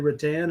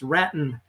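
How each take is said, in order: First: It is not said to rhyme with Patton. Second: It is said to rhyme with Patton. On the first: The speaker calls it wrong. "Do you say rattan?" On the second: The speaker calls it right. "It's just like it's like uh, George Patton"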